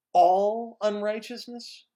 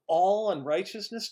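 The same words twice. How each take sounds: First: ALL drawn out slowly and loud; stress on ALL. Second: Said in the usual way. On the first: Shown as a demonstration. Preacher emphasizing that God cleanses from all sin, stress on "all". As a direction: lean hard on "all", louder and higher. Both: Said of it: "let me emphasize that word".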